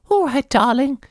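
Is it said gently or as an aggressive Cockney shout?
gently. It is said softly, like a sweet grandmother.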